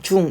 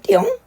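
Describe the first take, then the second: First: It is said as the plain Korean syllable jung. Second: It is said as an exaggerated Chinese-like ttiyong. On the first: "중 이러지 않고" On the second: "중국인들이 ... 띠용 이러더래"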